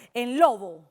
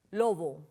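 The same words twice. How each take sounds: First: "lobo" with LO punched louder; stressed first syllable. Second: Said in the usual way. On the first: Shown as a demonstration. Teacher showing the stronger syllable, LO stressed in "lobo". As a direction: hit the LO of "lobo" hard, let bo fall. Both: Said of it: "se pronuncia con mayor intensidad".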